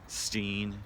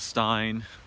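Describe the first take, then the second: First: The vowel sounds like 'ee' in 'seen'. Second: The vowel sounds like 'i' in 'fine'. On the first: Someone else says the name this way. "I just heard someone pronounce it Steen" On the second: The speaker always assumed the name sounded this way. "but I always thought it was Stein"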